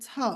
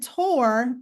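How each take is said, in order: First: The r at the end is dropped. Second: The r at the end is pronounced.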